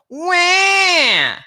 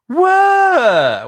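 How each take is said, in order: First: A bright, narrow, biting cry sound. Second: An open cry sliding from head to chest. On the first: "Everything is bright in this pharyngeal kind of bitey place" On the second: "where everything's open and they're kind of going from head to chest"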